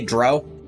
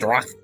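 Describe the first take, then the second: First: The name ends smoothly without a throaty sound. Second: The name ends with a harsh throaty sound. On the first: "You say Dro" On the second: "being very guttural with it makes it sound more Lovecraftian"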